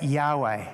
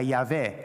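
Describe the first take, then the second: First: Yahweh said as "YAH-way", with a w sound; demonstrating the pronunciation Yahweh as YAH-way; Yahweh pronounced. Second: Yahweh said as "YAH-veh", with a v sound; demonstrating the Samaritan way of saying Yahweh as YAH-veh; Samaritan pronunciation. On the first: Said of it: "different ways to say it". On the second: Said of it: "the Samaritans, I believe, used to say". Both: Shown as a demonstration.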